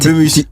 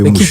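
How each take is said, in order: First: The name ends with an 's' sound. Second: The name ends with a 'sh' sound. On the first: The speaker calls it right. "on dit Bemus" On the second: The speaker calls it wrong. "c'est pas Bemouche"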